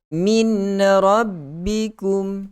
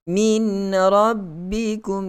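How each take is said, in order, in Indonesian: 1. Bunyi n yang jelas terdengar sebelum r. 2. Bunyi n yang jelas terdengar sebelum r.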